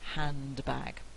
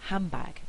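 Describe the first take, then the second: First: The n and d are both clearly said. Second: The d is lost and n becomes m. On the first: "instead of" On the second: "I'm likely to lose my D... bilabial assimilation"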